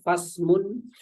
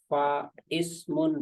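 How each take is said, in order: First: The words run together with no glottal stop. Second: A glottal stop separates the two words. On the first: The speaker calls it right. "Maka bacaannya fasmun" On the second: The speaker calls it wrong. "Bukan fa ismun, bukan"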